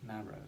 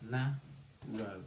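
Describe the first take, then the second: First: Said in the usual way. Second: NA and ROW said apart, with a gap; NA, pause, ROW; syllable by syllable. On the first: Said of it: "to build the word". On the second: Shown as a demonstration. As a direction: split NARROW into two separate beats. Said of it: "say the syllables to build the word".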